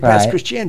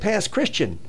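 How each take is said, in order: First: The stress falls on the last syllable of Christian. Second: The stress falls on the first syllable of Christian. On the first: The speaker calls it right. "The accent on the final syllable" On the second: The speaker calls it wrong.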